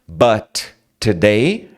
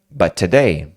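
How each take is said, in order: First: Both T sounds are pronounced separately. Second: The first T is dropped, linking into today. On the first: "Dois sons que competem" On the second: "você tira o primeiro"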